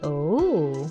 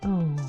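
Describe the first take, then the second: First: The pitch rises on the word. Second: The pitch falls on the word.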